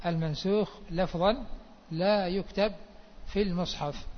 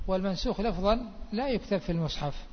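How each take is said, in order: First: Measured, phrase by phrase with pauses. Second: Said in the usual way. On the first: Shown as a demonstration. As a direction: repeat it spaced out for note-takers. Teacher repeats rule slowly for students.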